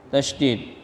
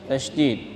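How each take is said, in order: Both takes have the same delivery.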